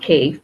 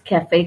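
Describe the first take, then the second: First: It is said as one syllable, like cave. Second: It is said as two syllables, ca-fe. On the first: The speaker calls it wrong. "They would pronounce it as cave. So it is not cave" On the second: The speaker calls it right. "it is cafe coffee day"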